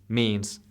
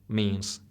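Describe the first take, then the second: The two takes are said the same way.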